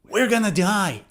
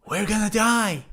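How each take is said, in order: First: Going to is reduced to gonna. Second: Going to is reduced to gonna.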